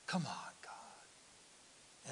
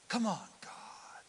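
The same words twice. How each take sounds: First: Very slow, much softer whispered plea; fainter whisper. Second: Slow whispered plea to God; exasperated whisper. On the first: Praying wearily to God in a very soft slow whisper. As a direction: let it fade into a sigh of a prayer. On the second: Praying impatiently to God in a slow whisper. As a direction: breathe it out impatiently. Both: Retold or imitated. Pleading under breath at delay.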